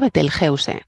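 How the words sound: It is pronounced the Spanish way. "dice que se pronuncia Betelgeuse, como suena"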